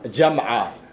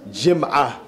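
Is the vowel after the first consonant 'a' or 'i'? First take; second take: a; i. First: The first vowel is an open 'a' sound. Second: The first vowel is a close 'i' sound. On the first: "you can say with the Fatha Jam'ah" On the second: "if a person says with the Kasra"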